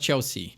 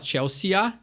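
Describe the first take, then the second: First: The ending is cut short, not fully sounded. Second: Every letter is sounded, including the final vowels. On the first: The speaker calls it right. "tu fala Chelsea. Então simplesmente dá essa cortadinha na palavra" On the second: The speaker calls it wrong. "tu não fala Chelsea"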